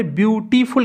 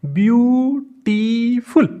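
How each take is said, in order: First: Said in the usual way. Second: beautiful drawn out in three separate beats, view, टी, फुल; syllable by syllable. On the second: Shown as a demonstration. Teacher showing students how a word splits, beautiful slowly syllable by syllable. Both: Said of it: "तीन में हमने कहा".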